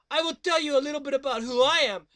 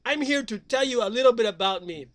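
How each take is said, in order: First: Fast surfer dude intro. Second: Said in the usual way. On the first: Acted. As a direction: rattle it off like a beach bum.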